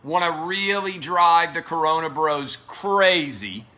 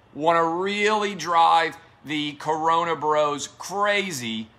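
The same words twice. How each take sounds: The two takes are said the same way.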